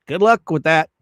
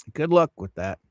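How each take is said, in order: First: Louder sarcastic send-off; mock sarcasm. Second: Said in the usual way. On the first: Real, not acted. Streamer scoffs at her injunction plan, sarcastic. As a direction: toss it off with scorn. Mocking a chat story.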